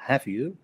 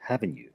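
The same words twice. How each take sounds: First: "have you" pitched up and rising; rising intonation. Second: "haven't you" dropped low and falling; falling intonation. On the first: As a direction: really ask it, lifting "have you". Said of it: "en vez de decir". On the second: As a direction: confirm with "haven't you", tone going down. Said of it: "lo estamos bajando". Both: Shown as a demonstration.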